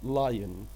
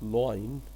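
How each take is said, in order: First: The first vowel sounds like 'lie'. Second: The first vowel sounds like 'law'. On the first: The speaker calls it right. "This is लायन" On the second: The speaker calls it wrong. "This is not लॉइन"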